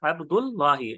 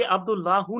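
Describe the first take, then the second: First: अब्दुल्लाही joined up, ending in "hee"; correct ending -hi. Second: अब्दुल्लाहु with a final "hoo"; wrong ending -hu. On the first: Teacher answers own question to students, अब्दुल्लाही ending -hi. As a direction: read अब्दुल्लाही with final -hi, not -hu. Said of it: "इसको क्या पढ़ेंगे?". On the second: Teacher warns students off this reading, अब्दुल्लाहु ending -hu. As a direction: read अब्दुल्लाहु ending in -hu, not -hi. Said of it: "नहीं पढ़ेंगे हम कभी भी". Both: Shown as a demonstration.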